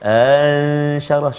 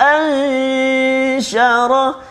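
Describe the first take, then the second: First: The glottal stop is softened and barely heard. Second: The glottal stop is pressed and clearly voiced. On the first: The speaker calls it wrong. "Dia tak jelas hamzah yang kedua. Ansyarah contoh" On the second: The speaker calls it right. "kita jelaskan hamzah yang kedua... angkat suara sikit ataupun kita tekan sedikit"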